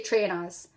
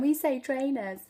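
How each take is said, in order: First: Trainers with a broad "ah" ending; Geordie trainers. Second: Higher trainers with a neat "uh" ending; posh kids' trainers. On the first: Shown as a demonstration. Mum teased by her kids, Geordie trainers. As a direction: end trainers as "tray-nahz". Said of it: "when I say trainers". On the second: Retold or imitated. Mother echoing her shouting Coventry kids, posh trainers. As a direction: say trainers the non-Geordie way, ending in "uh". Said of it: "Posh Coventry kids".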